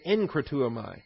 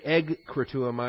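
First: The first syllable is said with an n sound. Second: The first syllable is said with a g sound. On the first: The speaker calls it right. "we say enkratuamai" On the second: The speaker calls it wrong. "we don't say egkratuamai"

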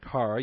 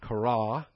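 First: The stress is on the first syllable. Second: The stress is on the last syllable. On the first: The speaker calls it wrong. "rather than kara" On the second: The speaker calls it right. "accent on the ultimate syllable there, so it's kara"

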